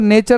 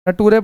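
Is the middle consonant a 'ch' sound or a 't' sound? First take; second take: ch; t. First: The middle consonant is a 'ch' sound. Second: The middle consonant is a 't' sound. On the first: The speaker calls it right. "इसको नेचर नहीं" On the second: The speaker calls it wrong. "नटूरे पढ़ोगे, जो कि गलत है"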